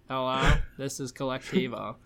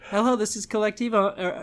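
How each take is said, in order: First: The greeting sounds flat and unenthusiastic. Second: The greeting sounds excited and upbeat.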